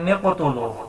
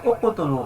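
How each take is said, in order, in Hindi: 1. शब्द n ध्वनि से शुरू होता है। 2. शब्द स्वर ध्वनि से शुरू होता है। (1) "हालांकि ये गलत है" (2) "उक़तुलू पढ़ेंगे"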